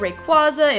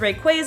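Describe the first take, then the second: First: The vowel after 'qu' is an 'ah' sound. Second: The vowel after 'qu' is an 'ay' sound. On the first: "I'm used to pronouncing the ah and Q U A" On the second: "it comes from Quasar"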